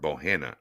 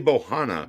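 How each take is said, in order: First: The name ends with an 'Anna' sound. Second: The name ends with an 'ahna' sound. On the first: "I'm on the Anna side hard" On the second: "If there's one less in, that'll be Bohana"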